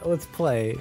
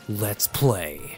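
First: It is said plainly, without drama. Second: It is said in a dramatic, movie-like way.

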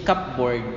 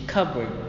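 First: It is said in a Philippine English accent. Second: It is said in an American English accent. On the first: "Philippine English" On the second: "American English"

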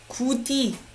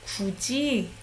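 First: It is pronounced letter by letter, as spelled. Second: It is pronounced with a changed consonant sound. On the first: The speaker calls it wrong. "Do you say that? No" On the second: The speaker calls it right. "not something that we will say the way it's written"

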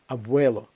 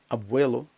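The two takes are said the same way.

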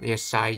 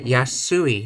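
First: The first syllable is said as 'ye'. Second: The first syllable is said as 'ya'. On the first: The speaker calls it wrong. "have I been saying it wrong?" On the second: The speaker calls it right. "yasui, not yesai"

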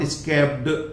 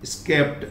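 First: The ending is an extra id syllable. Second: The ending is a plain t sound. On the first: The speaker calls it wrong. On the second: The speaker calls it right.

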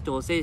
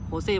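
First: The name begins with a J sound. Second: The name begins with an H sound. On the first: "มันต้องอ่านว่าโจเซ่ใช่ไหม" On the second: "ภาษาสเปนเขาอ่านว่าโฮเซ่"

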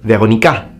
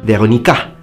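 First: The stress falls on the last syllable. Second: The stress falls on the last syllable.

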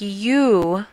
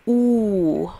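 First: The letter is said with a 'y' glide before 'oo'. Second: The letter is said as a plain 'oo' vowel. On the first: The speaker calls it wrong. "The letter U is not pronounced like you" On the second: The speaker calls it right. "but pronounced oo"

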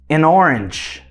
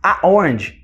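First: An N sound links the article into orange. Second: No N sound links the article into orange. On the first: The speaker calls it right. "esse N, ele entra para fazer essa conexão, para fazer esse linking sound" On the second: The speaker calls it wrong. "Por isso que não fica assim, ó, a orange"

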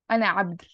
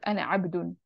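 First: The last word ends without the -un ending. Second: The last word ends with an -un ending. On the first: The speaker calls it right. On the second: The speaker calls it wrong. "Not ana abdun"

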